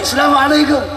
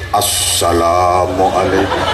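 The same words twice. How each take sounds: First: It is said high-pitched and very loud. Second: It is said in a big, booming voice. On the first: "pakai nada tinggi, suara lantang" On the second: A cleric greets the audience while preaching. "ceramah suarane digedhe-gedheke"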